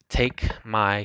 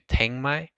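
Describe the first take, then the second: First: The first word ends in a k sound. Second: The first word ends in a nasal ng sound.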